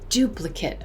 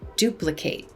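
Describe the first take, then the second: First: The final syllable sounds like 'it'. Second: The final syllable sounds like 'eight'. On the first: It is used as a noun. "you might have a duplicate" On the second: It is used as a verb. "the action of creating another would be to duplicate"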